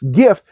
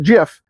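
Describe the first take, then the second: First: The word begins with a hard G sound. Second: The word begins with a J sound. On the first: The speaker calls it right. "GIF means graphics interchange format" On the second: The speaker calls it wrong. "I know the creator of the format pronounces it GIF"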